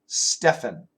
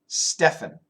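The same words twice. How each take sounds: No difference in how they are said.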